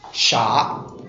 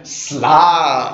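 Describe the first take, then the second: First: The word begins with a 'ch' sound. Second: The word begins with an 'sl' sound. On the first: This is the modern form of the word. "In modern standard Chinese" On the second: This is the ancient form of the word. "still known by the same name in modern Chinese, albeit with a different pronunciation"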